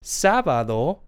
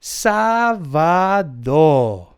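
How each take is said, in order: First: Sábado said briefly with a rising end; review prompt. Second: Sábado in slow syllables, SÁ-ba-do; Spanish pronunciation demo. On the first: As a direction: lift the last syllable of sábado. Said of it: "let's go over that again". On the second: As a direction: draw out each syllable of sábado, stepping down. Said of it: "Saturday is pronounced". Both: Shown as a demonstration.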